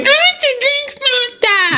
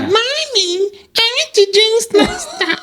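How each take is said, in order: First: Put-on very high, slow baby voice. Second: Put-on very high, slow childlike voice; like a toddler asking mommy; baby voice. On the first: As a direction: sing it like a small child. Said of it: "playing with a baby voice". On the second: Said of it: "and I hear".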